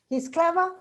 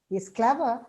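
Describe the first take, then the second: First: The pitch rises at the end. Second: The pitch falls and then rises. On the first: It is a question. "it becomes my question" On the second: Something unflattering is implied but not said. "it means it has an implied meaning which is derogative"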